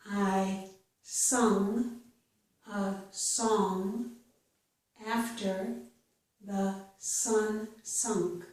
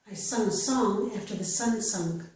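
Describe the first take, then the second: First: The sentence is spoken slowly. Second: The sentence is spoken faster. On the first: "I will read each sentence slowly" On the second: "then I will read it a little bit faster"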